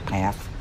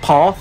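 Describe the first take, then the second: First: The word is said in an American accent. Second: The word is said in a British accent. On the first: "and they say path" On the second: "like we say, like path"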